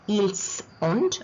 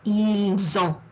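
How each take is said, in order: First: The final T of ont is pronounced. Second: The final T of ont is silent. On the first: The speaker calls it wrong. "It is not" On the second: The speaker calls it right. "The T is silent"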